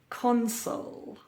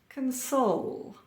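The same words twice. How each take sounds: First: The stress is on the first syllable. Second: The stress is on the second syllable. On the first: It is used as a noun or adjective. "stress on the first syllable" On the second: It is used as a verb. "Stress or emphasis on the second syllable"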